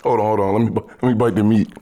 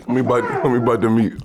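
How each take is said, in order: First: Talking with mouth full; chewing while talking. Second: Chewing between words; talking around food; mouth full. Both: Real, not acted. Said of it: "listening to us chew".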